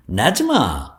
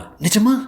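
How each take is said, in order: First: "நிஜமா" as a firm, falling answer; assuring "நிஜமா", dropping at the end; confirming. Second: "நிஜமா" as a high, rising question; hopeful high "நிஜமா?". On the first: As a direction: confirm "நிஜமா" with a long fall. He confirms his promise. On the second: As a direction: ask "நிஜமா" high, lifting at the end. Girl doubts his promise. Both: Acted.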